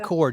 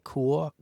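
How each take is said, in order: First: It is said with an American pronunciation. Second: It is an attempt at a British pronunciation. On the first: "We say I say core just because it's easier" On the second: "I can't pronounce it the way you do in the U K"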